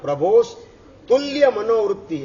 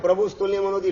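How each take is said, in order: First: Each word is separated and given weight. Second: The words are run together quickly without emphasis. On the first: The speaker calls it right. "ભેગું નહીં, ભાર આપવાનો છે" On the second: The speaker calls it wrong. "ભેગું બોલી દો છો"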